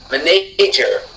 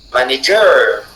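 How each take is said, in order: First: The stress is on the second syllable. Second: The stress is on the third syllable. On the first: "si la syllabe N, na était accentuée" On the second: "Si la syllabe ger de la fin était accentuée"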